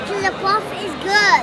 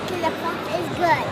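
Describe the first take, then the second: First: It is said at a louder volume. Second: It is said at a softer volume.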